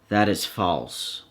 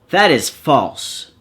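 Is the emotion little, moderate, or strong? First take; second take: little; strong. First: It is said with very little emotion. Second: It is said with strong emotion.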